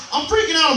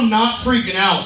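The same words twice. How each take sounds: First: High panicked jump on "freaking". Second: Said in the usual way. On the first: Shown as a demonstration. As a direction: squeal "I'm freaking out" high.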